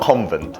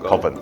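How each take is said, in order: First: It is said with an n sound before v. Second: It is said with no n sound before v. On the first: The speaker calls it wrong. "not convent" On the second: The speaker calls it right. "N 없어요"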